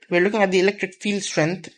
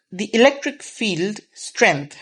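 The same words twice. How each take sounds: First: Said in the usual way. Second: "electric field strength" said slowly, each word weighted; emphasizing the term. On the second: Shown as a demonstration. Teacher to students, slowly stressing "electric field strength". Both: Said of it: "I'm emphasizing that word".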